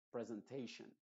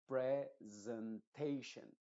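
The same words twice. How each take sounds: First: Said in the usual way. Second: Presentation very slow, each syllable drawn out; slow careful model. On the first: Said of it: "tendría que decirlo". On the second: Shown as a demonstration. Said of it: "lo pronuncié mal ... tendría que decirlo". (presentation lento y cuidado, como modelo)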